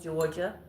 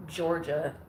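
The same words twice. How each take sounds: First: Lightly imitated Georgia accent; mock sexy Georgia accent. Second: Sexy Georgia drawl. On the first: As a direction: say Georgia like a smooth Southern guy, lightly. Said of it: "I'm sure he doesn't say it like that". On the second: Retold or imitated. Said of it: "a sexy little Georgia thing going on".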